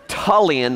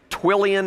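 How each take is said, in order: First: The name begins with a 'tull' sound. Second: The name begins with a 'twill' sound. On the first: The speaker calls it right. "It's Tullian" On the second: The speaker calls it wrong. "I think he said"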